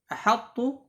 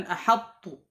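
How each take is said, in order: The two takes are said the same way.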